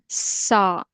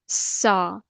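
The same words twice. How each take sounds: First: The consonant is a sharp whistling hiss. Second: The consonant is a sharp whistling hiss.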